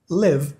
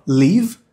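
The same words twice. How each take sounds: First: "Live" with an eh-like vowel; short-i pronunciation. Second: "Live" said as "leave", with tense ee; long-i pronunciation. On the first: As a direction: say "Live" as "lev". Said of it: "a letra I tem som de E". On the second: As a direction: say "Live" as "leev". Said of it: "A letra E tem som de I". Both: Shown as a demonstration.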